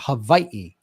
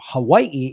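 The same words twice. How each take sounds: First: The middle consonant is a V sound. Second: The middle consonant is a W sound.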